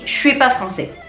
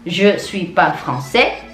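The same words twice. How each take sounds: First: Je suis is squashed together and said quickly. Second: Je suis is pronounced fully at a normal pace. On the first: "lebih cepat lagi ngomongnya" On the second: "Bukan je suis pas français"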